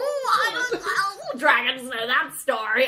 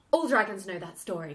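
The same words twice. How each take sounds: First: High, loud, drawn-out comic dodge; laughing, hammed-up bashful voice; mock sheepish dragon. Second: Low-key, sober delivery; serious. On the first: Dragon dodges Bowen's question, scratching his head, hammed-up sheepish. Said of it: "scratches the back of his head. He's like". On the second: Shown as a demonstration. The dragon's line as it could have been, serious. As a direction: say it straight and grave. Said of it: "it could have been serious".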